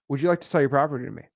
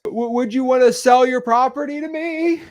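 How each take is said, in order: First: Smooth, fast, easy ask; confident. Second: High, stammering, louder nervous ask. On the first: Seasoned wholesaler asking a seller, fast and confident. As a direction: rattle it off like you've done it thousands of times. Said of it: "they're gonna be like". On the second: New wholesaler asking a seller, nervous high stammer. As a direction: stumble out the question like a scared beginner. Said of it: "they sound like this". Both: Retold or imitated.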